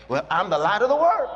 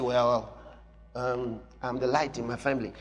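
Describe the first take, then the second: First: Bold declaration. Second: Low, soft, hesitant mock believer; timid believer. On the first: Shown as a demonstration. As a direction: declare it with boldness. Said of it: "Be bold". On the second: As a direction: shrink the claim down shyly. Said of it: "So you say".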